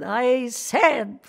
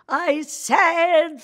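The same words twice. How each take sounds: First: Put-on heavy German accent, breaking into gibberish; mock German teacher. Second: Loud, high mock-German outburst; hammed-up furious German teacher, spewing gibberish; really angry German. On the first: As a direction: imitate an impatient German woman's garbled speech. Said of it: "a German woman". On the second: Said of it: "she got really angry at me".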